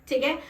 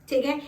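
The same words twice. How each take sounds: The two takes are said the same way.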